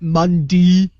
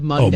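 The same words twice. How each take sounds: First: The final syllable sounds like 'ee'. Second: The final syllable sounds like 'ay'. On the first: The speaker calls it wrong. "not E E" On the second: The speaker calls it right. "it's A Y"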